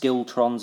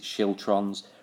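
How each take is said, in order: First: The word begins with an 'sk' sound. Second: The word begins with an 'sh' sound. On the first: "It's pronounced skiltrons, apparently" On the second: "I'm going to pronounce it schiltrons"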